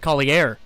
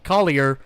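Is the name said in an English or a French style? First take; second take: French; English. First: The name is said in a French style. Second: The name is said in an English style. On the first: The speaker calls it wrong. "instead of Collier" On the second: The speaker calls it right. "you're gonna be uh, hearing Collier"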